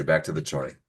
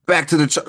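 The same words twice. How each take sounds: First: Said in the usual way. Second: Much higher, louder announcement; loud high call. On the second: Shown as a demonstration. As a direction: call it out to bring everyone back.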